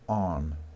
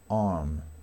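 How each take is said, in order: First: The r sound is barely heard or silent. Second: The r sound is barely heard or silent.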